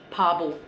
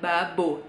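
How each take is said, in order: First: The word begins with a clearer P sound. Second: The word begins with a voiced B sound. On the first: The speaker calls it right. "tapi pabo" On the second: The speaker calls it wrong. "dibacanya sama mereka nggak babo"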